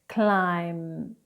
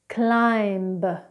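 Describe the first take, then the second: First: The final b sound is silent. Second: The final b sound is pronounced. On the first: The speaker calls it right. "then correctly" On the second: The speaker calls it wrong. "incorrectly first"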